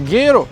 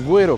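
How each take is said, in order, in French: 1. Le g est directement suivi du e. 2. Un son w suit le g avant le e.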